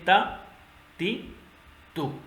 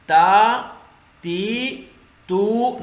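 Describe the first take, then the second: First: The vowels are kept short. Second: The vowels are drawn out long. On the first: The speaker calls it right. "Simple अदा करना" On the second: The speaker calls it wrong. "नहीं पढ़ेंगे, गलत है, लंबा नहीं करना"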